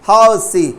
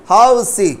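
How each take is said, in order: The two takes are said the same way.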